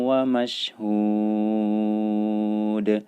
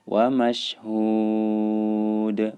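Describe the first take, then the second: The two takes are said the same way.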